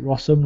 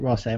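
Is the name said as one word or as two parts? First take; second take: one word; two parts. First: The name is said as one word rhyming with possum. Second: The name is said as Ross plus the letter M. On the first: "I pronounce it Rossum, like possum" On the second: "I don't pronounce it Ross M"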